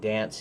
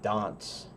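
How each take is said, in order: First: American accent, with a short flat A vowel. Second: British accent, with a long A vowel. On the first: "instead of saying dance" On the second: "you say dance"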